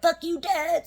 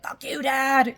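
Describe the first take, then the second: First: Half-laughing mock fury, pitched much higher; mock rage outburst. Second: A sudden raised outburst, higher and louder, at Dad; demo of rage. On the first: Coach picturing a venting session aimed at Dad, a high mock outburst. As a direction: fling it at Dad like a playful tantrum. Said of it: "have a little, like, "Fuck you, Dad" session". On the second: Coach showing a client how to rage at her father, a raised outburst. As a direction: let the anger at Dad burst out in one line. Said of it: "Allow yourself to rage". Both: Shown as a demonstration.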